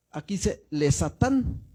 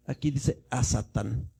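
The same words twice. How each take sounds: First: "le Satán" despacio, marcando "le"; la forma con preposición. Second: "a Satán" despacio, marcando la "a" del artículo Hei; la forma con artículo. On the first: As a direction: leer "le" claro, como preposición hebrea. ("le Satán", sílaba "le" bien marcada y lenta) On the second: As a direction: pronunciar "a" abierta antes de "Satán". ("a Satán", con la "a" lenta y clara) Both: Shown as a demonstration. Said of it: "¿Ya vemos la diferencia?".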